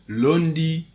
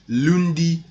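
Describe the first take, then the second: Both takes have the same delivery.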